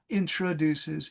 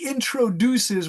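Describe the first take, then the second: First: The vowel after 'intr' is reduced to 'uh'. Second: The vowel after 'intr' is a full 'o'. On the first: It is how many people casually say it. "many Americans say intra" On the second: It is said carefully to help learners. "I say introduces when I'm really helping my students"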